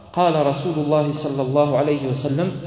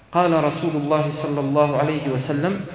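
The two takes are said the same way.

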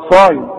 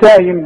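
First: The first consonant is emphatic and heavy. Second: The first consonant is a plain, light s. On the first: The speaker calls it right. "دي كلمات متداولة بنقولها بالصاد" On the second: The speaker calls it wrong. "مش سايم بقى"

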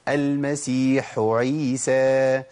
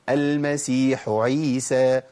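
The two takes are said the same way.

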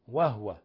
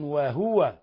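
First: The h has no vowel after it. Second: The h is followed by a short vowel. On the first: "بتسكين الهاء" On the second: "بالتحريك"

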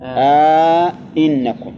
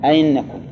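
First: A long 'a' is added and both glottal stops are full. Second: The second glottal stop is softened, with no long vowel. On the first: "إدخال ألف بينهما ... هذا على التحقيق" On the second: "تسهيل الثانية ... سهلة، تخليها بين الياء والهمزة"

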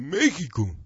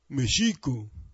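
First: The stress does not fall on the second syllable. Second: The stress falls on the second syllable. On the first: This is the Hispanicized form of the name. The speaker calls it wrong. "sufrieron ese cambio en su acentuación" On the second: This is the original native form of the name. The speaker calls it right. "las palabras en idioma náhuatl son graves, lo cual quiere decir que se acentúa la penúltima sílaba"

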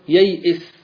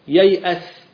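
First: The vowel before the last consonant is i. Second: The vowel before the last consonant is a. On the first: "أو بالكسر ييئس" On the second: "ييأس بالفتح"

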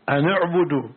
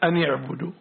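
First: The n is followed by a u vowel. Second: The n is followed by an i vowel. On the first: "ضم" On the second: "الكسر كما قرأتها"

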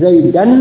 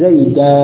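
First: The word ends with an n sound. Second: The word ends with a long a vowel. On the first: The reader continues without stopping. "asalnya sesuai dengan kaidah i'rab" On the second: The reader stops at this word. "Dibaca dengan waqaf, maka tanwinnya diganti dengan alif"

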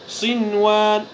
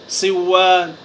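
First: The n sound is clearly pronounced before w. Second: The n sound is merged into the w. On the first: The speaker calls it right. "بل تظهر هذه النون الساكنة، فنقرأها" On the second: The speaker calls it wrong. "فلا تقرأ ... فهذا خطأ ولحن"

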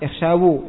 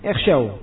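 First: The word ends with an extra u vowel. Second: The word ends on w with no vowel. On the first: The speaker calls it wrong. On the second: The speaker calls it right. "waw dan nyanya disukun"

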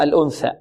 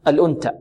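First: The consonant after the n is a th sound. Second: The consonant after the n is a t sound. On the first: The speaker calls it right. "لا الأنثى" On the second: The speaker calls it wrong. "لأن البعض يقول أنت"

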